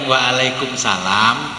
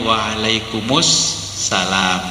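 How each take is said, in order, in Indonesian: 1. Diucapkan dengan bunyi bergaya Jawa. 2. Diucapkan dalam bahasa Arab, disambung tanpa berhenti. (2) "gak ada yang berhenti"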